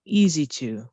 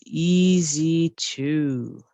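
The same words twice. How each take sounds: First: Said in the usual way. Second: Very slow, stretched-out demo; slow model phrase. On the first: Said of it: "It's easy to". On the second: Shown as a demonstration. Teacher slowly models the answer for learners. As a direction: spell it out word by word.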